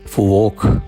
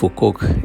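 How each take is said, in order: First: The second syllable starts with a w. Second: The second syllable starts with a hard k. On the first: The speaker calls it right. "ഫുവോക്ക് എന്നാണ് യഥാർത്ഥ അതിൻ്റെ ഉച്ചാരണം" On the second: The speaker calls it wrong. "ഫുക്കോക്ക് എന്നല്ല പറയേണ്ടത്"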